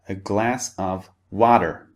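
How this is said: The T in water sounds like a soft D. "In American English, however, very often the T sound in water becomes a D sound"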